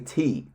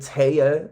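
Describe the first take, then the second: First: The word is said with one syllable. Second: The word is said with two syllables. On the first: The speaker calls it right. "you say T" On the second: The speaker calls it wrong. "You don't say Taya"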